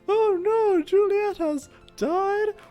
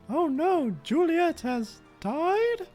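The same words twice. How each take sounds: First: It is said loudly and upset. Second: It is said fairly quietly.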